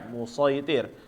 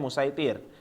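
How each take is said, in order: First: The s sound is emphatic and heavy. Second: The s sound is plain and light. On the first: "huruf yang besarnya itu yang so yang dibaca musoitir" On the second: "Kalau sa-nya di atas maka e, biasanya musaitir"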